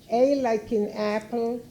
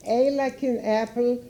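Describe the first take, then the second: No difference in how they are said.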